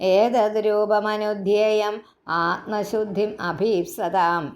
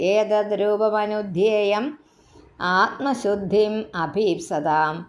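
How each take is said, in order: First: The line is read without a break in the middle. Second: There is a pause after the first eight syllables.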